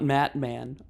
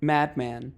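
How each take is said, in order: First: The middle consonant is a T sound. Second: The middle consonant is a D sound. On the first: The speaker calls it wrong. "not Matman" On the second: The speaker calls it right. "Madman, not Matman"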